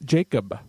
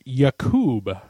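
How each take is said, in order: First: The name begins with a J sound. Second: The name begins with a Y sound. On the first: The speaker calls it wrong. "It's not Jacob" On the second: The speaker calls it right. "is actually pronounced Yakub"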